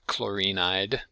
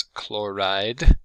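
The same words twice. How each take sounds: First: Chlorinide said slowly as the wrong four syllables, KLOR-in-ide; common wrong pronunciation. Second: Chloride said slowly in two syllables, KLOR-ide; slow, careful chloride in two syllables, KLOR-ide; correct pronunciation. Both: Shown as a demonstration. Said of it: "not chlorinide".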